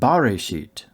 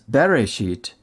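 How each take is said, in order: First: The first syllable has an 'a' vowel. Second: The first syllable has an 'e' vowel. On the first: The word is read with the definite article. "rather than" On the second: The word is read without the definite article. "vocalize Reshit anarthrously"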